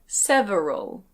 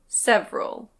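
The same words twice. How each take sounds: First: The word is said with three syllables. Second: The word is said with two syllables. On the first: "with three syllables" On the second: "with two syllables"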